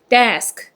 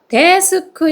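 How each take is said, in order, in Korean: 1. 한 음절로 발음돼요. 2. 세 개의 음절로 나뉘어 발음돼요. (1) "desk 이렇게 해서 일음절이 되는 거예요" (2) "데스크 이렇게 사문절이 아니고요"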